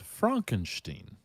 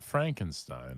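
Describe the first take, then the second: First: The name is said with a German pronunciation. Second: The name is said with an English pronunciation. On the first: The speaker calls it right. "the name is Frankenstein" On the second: The speaker calls it wrong. "not Frankenstein. I'm very sorry for mispronouncing that"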